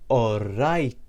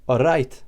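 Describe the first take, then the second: First: All right drawn out slowly, all... right; slow demonstration. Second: "All right" said short and louder, as one word; Maltese greeting. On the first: Teacher repeats it for learners, slowly drawn-out All right. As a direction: stretch both syllables of All right. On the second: Teacher introduces the next greeting, short clear All right. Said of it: "The next greeting is". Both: Shown as a demonstration.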